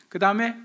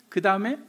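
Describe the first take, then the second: The two takes are said the same way.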